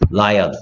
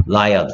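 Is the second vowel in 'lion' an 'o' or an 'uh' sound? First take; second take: uh; uh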